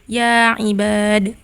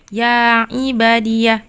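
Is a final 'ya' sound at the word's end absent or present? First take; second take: absent; present. First: The word ends without any 'ya' sound. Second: The word ends with an added 'ya' sound. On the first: "tanpa ya" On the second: "dengan ya"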